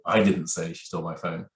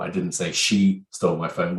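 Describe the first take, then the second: First: The stress falls on the word I. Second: The stress falls on the word she. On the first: Someone other than the speaker said it. "which clearly means it wasn't me" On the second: Someone other than her stole it. "which means infers it could have been somebody else"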